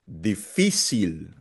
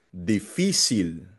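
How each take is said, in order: The two takes are said the same way.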